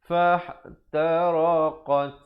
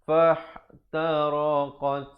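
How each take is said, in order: The two takes are said the same way.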